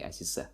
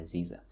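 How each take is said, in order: First: Aziza stressed on the final a; Aziza, last syllable stressed, Tajik way; Tajik-style stress. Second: Aziza stressed on the middle i; Aziza, second syllable stressed; Russian-style stress. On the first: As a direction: put the weight on za in Aziza. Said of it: "But here in Tajikistan". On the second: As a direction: lean on the zi in Aziza. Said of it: "it's E instead of A". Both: Shown as a demonstration.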